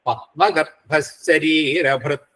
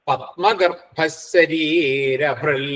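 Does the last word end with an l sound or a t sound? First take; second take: t sound; l sound. First: The last word ends with a t sound. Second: The last word ends with an l sound. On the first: This is the standard Sanskrit pronunciation. "പക്ഷെ സംസ്കൃതത്തില് ഭൃത്ത് എന്നിനെയാണ് പറയാം" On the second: This is the regional Kerala pronunciation. "ഭൃൽ എന്ന് ചിലർ ഉച്ചരിക്കും കേരളീയമായ രീതിയിൽ"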